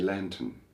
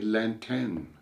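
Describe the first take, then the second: First: It is said smoothly, with an English accent. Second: It is said in separate syllables, with a French accent.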